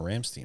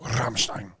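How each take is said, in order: First: The name is said with a plain English R. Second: The name is said with a rolled R. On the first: The name is said the usual local way. "I've listened to Ramstein before" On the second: The speaker is correcting someone with the original pronunciation. "No, Rammstein. ... roll my R's and say Stein"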